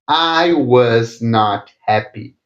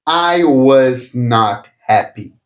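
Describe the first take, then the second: No difference in how they are said.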